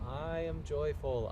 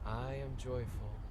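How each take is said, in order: First: It is said in a loud, forceful voice. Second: It is said in a soft whisper. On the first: "saying it first in a loud voice" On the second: "Now in a whisper"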